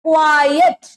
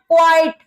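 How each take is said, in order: First: "quiet" drawn out as kwaa-yet, rising at the end; two-syllable quiet. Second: "quite" as one syllable, kwite, with no yet; wrong "quite". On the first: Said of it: "not quite". (quiet को क्वा-येट, दो हिस्सों में) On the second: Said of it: "not, don't say". (quite को एक ही हिस्से में, क्वाइट) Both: Shown as a demonstration.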